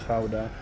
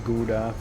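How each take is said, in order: First: The word has a Dutch pronunciation. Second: The word has an English pronunciation. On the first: "in Dutch we say Gouda" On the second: "in English gets pronounced as Gouda"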